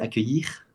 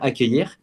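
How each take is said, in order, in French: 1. Accent belge avec une fin de mot exagérée et soufflée. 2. Accent français standard avec une fin de mot simple. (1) "ils disent accueillir. ... c'est un peu plus exagéré" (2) "pour dire accueillir"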